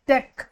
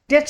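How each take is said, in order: First: The word ends in a 'k' sound. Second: The word ends in a 'ch' sound. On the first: The speaker calls it right. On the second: The speaker calls it wrong.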